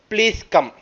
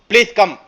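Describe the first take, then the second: First: It is said in a polite, requesting tone. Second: It is said in an angry, commanding tone. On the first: It is a warm invitation. "If I am inviting some person for a marriage, I request" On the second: It is an order, not a request. "If I am little angry"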